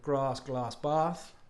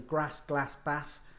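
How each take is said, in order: First: It is said in a southern English accent. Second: It is said in a Birmingham accent.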